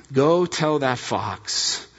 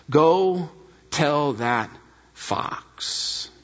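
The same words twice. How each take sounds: First: Said in the usual way. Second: Slow, deliberate, fox dropped to a breath; each word weighed, last word nearly breathed; courageous, determined. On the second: Shown as a demonstration. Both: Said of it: "Listen to the courage and determination".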